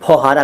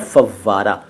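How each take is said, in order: First: The middle has an h sound after 'au'. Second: The middle has a doubled v sound. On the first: The speaker calls it wrong. "फौहारा कहते हैं कई लोग" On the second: The speaker calls it right. "सही शब्द है फव्वारा"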